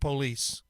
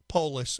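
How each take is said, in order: First: The name sounds like the word police. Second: The name does not sound like police. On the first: The speaker calls it wrong. "if you pronounce it like police" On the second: The speaker calls it right. "Polis, I should probably say"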